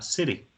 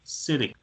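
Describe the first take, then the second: First: It is said with an American accent and soft t. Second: The same.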